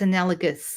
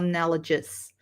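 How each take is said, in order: First: The G is hard, as in 'go'. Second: The G is soft, as in 'gem'. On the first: The speaker calls it right. "it's a hard G" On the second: The speaker calls it wrong. "It's not analogous"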